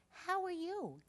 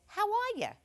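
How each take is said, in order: First: "How are you?" high and small, every word said fully; child's voice, careful and complete; proper "How are you?". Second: "How are ya?" run together, "ya" clipped Jersey style; mock child's voice saying "ya" like a Jersey local. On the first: Retold or imitated. Comic correcting her quote of the stall voice, proper "How are you?". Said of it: "They said, "How are you?". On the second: Comic correcting her quote of the stall voice, "How are ya?" said Jersey style. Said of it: "Actually, they didn't say, "How are ya?".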